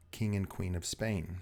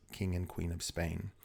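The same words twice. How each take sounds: The two takes are said the same way.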